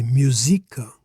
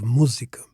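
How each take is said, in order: First: "musica" stressed on SI; wrong stress demo. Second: "música" stressed on MÚ; first-syllable stress. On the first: Teacher shows the word without accent, "musica" stressed on SI. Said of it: "Otherwise it would be". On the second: Teacher contrasts with the correct "música", stressed on MÚ. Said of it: "here we need the graphical accent". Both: Shown as a demonstration.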